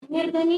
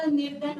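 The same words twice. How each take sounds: First: "निर्धनी" with a long ee ending, louder; the mistaken form "निर्धनी", stressed to the last vowel; extra final vowel. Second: "निर्धन" closing on the n; the corrected form "निर्धन", stopped at the consonant; no final vowel. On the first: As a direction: hit "निर्धनी" loudly, ending on नी. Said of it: "निर्धनी नहीं होता". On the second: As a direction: end "निर्धन" on a plain न, no ee. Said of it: "निर्धन होता है". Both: Shown as a demonstration.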